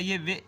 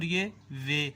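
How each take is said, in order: First: Teacher's short-vowel "وے". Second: Teacher's lengthened "وے"; slightly longer "وے". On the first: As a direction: say "وے" with a brief vowel. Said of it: "وہ نا چھوٹی آواز". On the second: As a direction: hold "وے" a little beyond short. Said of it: "اس سے تھوڑی سی زیادہ". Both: Shown as a demonstration.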